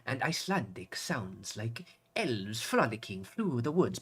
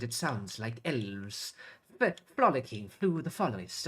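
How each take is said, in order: First: Slow mock Icelandic accent, rolling the r in frolicking; Icelandic accent, rolled r. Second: Imitating Icelandic accent. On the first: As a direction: roll the r in frolicking like an Icelandic comedian, slowly. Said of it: "she obviously rolled her tongue". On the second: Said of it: "And she said".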